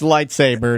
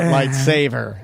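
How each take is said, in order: First: The word is said with a 'b' sound. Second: The word is said with a 'v' sound. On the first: The speaker calls it right. "it's lightsaber" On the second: The speaker calls it wrong. "not lightsaver"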